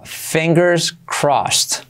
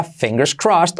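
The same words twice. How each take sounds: First: Very slow fingers crossed; slow explained. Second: Quick natural fingers crossed; normal speed. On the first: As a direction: draw each word out. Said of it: "primero explicado lento". (despacio, palabra por palabra) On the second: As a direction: say it at native pace. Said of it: "La versión abreviada". (versión rápida y natural) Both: Shown as a demonstration.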